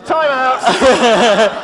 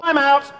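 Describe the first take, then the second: First: Louder time out with a laugh in it; laughing shout. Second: Higher and louder call; calling time out. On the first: Cutting off an audience member, loud and laughing. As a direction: shout it over the laughing room. Calling again over laughter. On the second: Stopping the audience mid-exchange, called out loud and high. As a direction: call a halt to the room. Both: Real, not acted.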